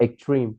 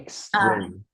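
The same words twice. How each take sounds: First: The word is said without the s sound. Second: The word is said with a clear s sound. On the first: The speaker calls it wrong. "not extreme" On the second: The speaker calls it right. "it has uh, the s- sound extreme"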